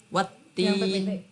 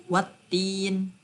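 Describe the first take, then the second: The two takes are said the same way.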